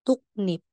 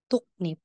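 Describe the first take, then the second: The two takes are said the same way.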